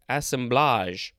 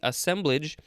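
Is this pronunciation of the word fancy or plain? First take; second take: fancy; plain. First: The word is said in a fancy way. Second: The word is said in a plain, ordinary way.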